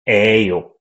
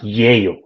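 First: The ending begins with a plain vowel, no glide. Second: The ending begins with a clear y glide. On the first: "We make this sound 에요" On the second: "we don't make that sound 예요"

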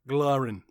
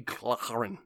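First: The word has a soft, light glottal sound. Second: The word has a sharp, hard glottal sound. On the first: The speaker calls it right. "That's better" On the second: The speaker calls it wrong. "that was too much glottal sharp"

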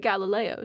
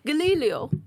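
First: The word is said in a plain accent. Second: The word is said in a foreign accent. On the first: "she wouldn't say Galileo" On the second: "she had a little bit of an accent"

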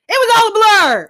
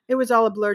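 First: The words are said in a loud voice. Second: The words are said in a soft voice. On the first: This is how the witness said it. The speaker calls it right. "She's like, ... because she yell talks" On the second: This is not how the witness said it. The speaker calls it wrong. "She didn't say it like this"

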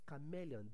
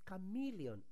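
First: The E is pronounced like 'ay'. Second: The E is pronounced like 'ee'. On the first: The speaker calls it wrong. "not chameleon. The E in chameleon is sounding E, not A" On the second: The speaker calls it right. "the correct pronunciation for that word is chameleon"

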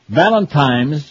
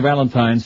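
First: It is said with an m sound inside. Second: It is said without an m sound inside. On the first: The speaker calls it wrong. "with an M" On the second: The speaker calls it right. "as opposed to"

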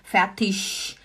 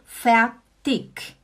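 First: The word ends with an sh sound. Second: The word ends with a hard k sound. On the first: "já é um x" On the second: "com K no final"

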